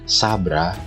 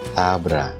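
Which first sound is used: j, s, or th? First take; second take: s; th. First: The first sound is a plain s. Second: The first sound is a soft th. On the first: The speaker calls it wrong. "Jadi bukan sabra" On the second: The speaker calls it right. "seolah-olah ada huruf H yang mengikutinya"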